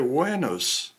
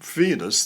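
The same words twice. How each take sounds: First: The word begins with a W sound. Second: The word begins with a V sound. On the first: The speaker calls it right. "they say Venus. That's how it should be pronounced in classical Latin" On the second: The speaker calls it wrong. "they don't say"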